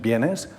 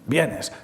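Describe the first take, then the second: First: It is said as a question. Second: It is said in an angry tone. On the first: The speaker is asking whether someone is coming. "interrogación" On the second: The speaker is annoyed that someone is coming.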